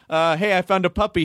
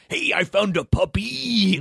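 First: The intonation follows an ordinary, natural pattern. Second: The pitch jumps in odd, unexpected places. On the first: This is how a director would want the line read. "if you wanted him to say" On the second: This is how the wrestler would actually deliver it. "he'd go"

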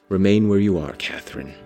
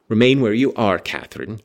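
First: It is read with sorrowful despondency. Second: It is read plainly, without sorrow.

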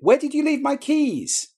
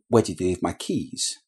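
First: The voice sounds anxious, with a changed pitch. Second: The voice sounds calm and even in pitch. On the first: "I've communicated some anxiety or some upset there just by changing the pitch" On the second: "That sounds very calm"

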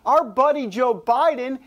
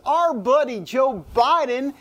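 First: It is said in the speaker's plain accent. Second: It is said with a Southern American accent.

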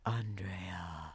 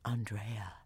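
First: It is said in a deep Batman voice. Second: It is said in a normal voice.

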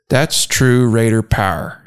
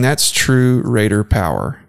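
First: Power is squeezed into one syllable, pow'r. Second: Power is said with two full syllables. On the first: "POW apostrophe R" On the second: "instead of saying"

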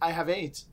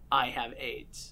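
First: It is read at a quicker pace. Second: It is read at a slower pace.

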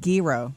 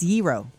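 First: The word begins with a hard G sound. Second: The word begins without a hard G sound. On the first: The speaker calls it wrong. "Not gyro. We say the G" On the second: The speaker calls it right. "It's gyro"

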